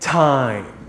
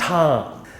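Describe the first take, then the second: First: The vowel sounds like the one in Thai. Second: The vowel sounds like the one in Tom. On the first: The speaker calls it right. "Put it together and you get time" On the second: The speaker calls it wrong. "It's not Tom"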